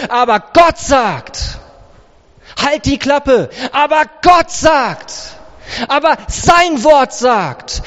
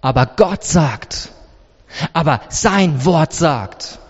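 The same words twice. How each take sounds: First: Forceful, raised, emphatic comeback; defiant rebuttal. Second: Low, measured, sure answer; calm firm rebuttal. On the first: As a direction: silence the accuser with conviction. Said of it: "in Zukunft sagst du". (energisch und trotzig entgegnet) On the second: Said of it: "Jesus antwortet und schaut ihnen ins Gesicht". (ruhig, tief und bestimmt) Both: Acted.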